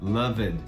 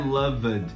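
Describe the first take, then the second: First: The ending is just a short d sound. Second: The ending is said as an extra syllable. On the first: The speaker calls it right. "Loved com som de D" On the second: The speaker calls it wrong. "não é loved"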